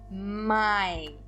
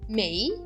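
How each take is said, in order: First: The vowel sounds like 'eye'. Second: The vowel sounds like 'ay'. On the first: The speaker calls it right. "eu digo mai" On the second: The speaker calls it wrong. "eu não digo mei"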